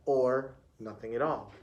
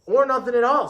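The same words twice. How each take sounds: First: Lower, softer echo; teacher repeating. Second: Higher-pitched pupil calling out an answer; pupil chiming in. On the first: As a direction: repeat it back low and quietly. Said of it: "repeated Miss Pointy". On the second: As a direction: chime in with a higher, lifted voice. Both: A narrator's reading.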